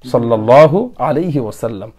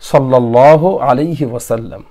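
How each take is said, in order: No difference in how they are said.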